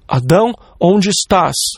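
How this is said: The voice is stern and accusing. The speaker is ready to punish. The speaker calls it wrong. "um tom de voz como de um policial, que está pronto para nos jogar na prisão"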